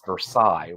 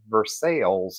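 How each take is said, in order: First: Versailles is said the French way. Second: Versailles is said the local Kentucky way. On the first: This is how outsiders think it should be said. "that's a French name and it's Versailles" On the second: This is the local name for the town. "in Kentucky, we call that Versailles"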